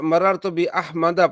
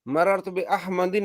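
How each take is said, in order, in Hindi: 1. नाम सादे 'a' स्वर पर खत्म होता है। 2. नाम 'in' पर खत्म होता है, तनवीन के साथ। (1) "जैसे जा मररतु बि अहमदा पढ़ेंगे" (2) "नहीं पढ़ेंगे"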